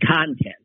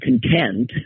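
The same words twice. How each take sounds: First: It is the noun, stressed on the first syllable. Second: It is the adjective, stressed on the second syllable.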